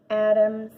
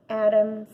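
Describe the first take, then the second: No difference in how they are said.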